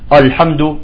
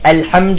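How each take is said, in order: First: The opening glottal stop sounds heavy and thick. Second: The opening glottal stop sounds light and thin. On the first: The speaker calls it wrong. "بينما بعضهم يقول الحمد" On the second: The speaker calls it right. "لاحظتوا كيف بدأت فيها؟"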